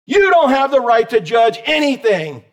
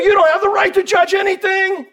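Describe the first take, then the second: First: Said in the usual way. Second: Mock accuser, high pitched; mocking the world. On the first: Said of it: "repeats the line". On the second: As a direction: parody the critic's voice. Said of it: "the world wants to throw us".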